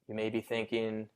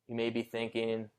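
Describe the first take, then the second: No difference in how they are said.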